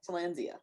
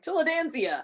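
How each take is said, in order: First: No extra syllable is added in the middle. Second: An extra syllable is added in the middle. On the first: The speaker calls it right. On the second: The speaker calls it wrong.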